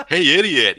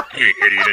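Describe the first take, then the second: First: High, lilting greeting; high-pitched, chirpy call; wrong, varied tone. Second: Said in the usual way. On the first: Shown as a demonstration. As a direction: sing out the greeting higher, lightly. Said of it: "So you can't say, like". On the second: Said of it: "You have to say".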